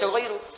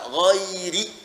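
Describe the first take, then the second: First: The word ends with an 'oo' vowel. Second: The word ends with an 'ee' vowel. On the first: The word starts a separate phrase. The speaker calls it wrong. "Kalau ghairu, berarti kalimat lain lagi" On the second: The word is linked to the phrase before it. The speaker calls it right. "Karena di sini hukumnya kasrah, di sini pun dibaca kasrah juga"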